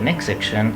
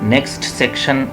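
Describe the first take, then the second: First: The t in next is dropped. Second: The t in next is clearly pronounced. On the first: The speaker calls it right. "बस काफ़ी है, टी अगर उड़ रहा है उड़ा दें" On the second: The speaker calls it wrong. "यूँ नहीं पढ़ना"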